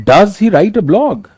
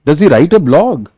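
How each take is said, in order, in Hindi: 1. यह प्रश्नवाचक स्वर में बोला गया है। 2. यह प्रश्नवाचक स्वर में बोला गया है।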